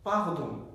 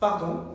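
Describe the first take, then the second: First: The word is said more slowly. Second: The word is said at a normal speed.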